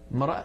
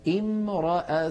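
First: The word has no initial 'i' sound. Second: The word begins with an 'i' sound. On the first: The word is joined to the word before it. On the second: The reading starts at this word.

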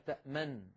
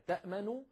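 First: The final n has no vowel after it. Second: The final n is followed by a short u vowel. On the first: "تصبح" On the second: "فبعض العرب كانوا يسكنون النون الأولى"

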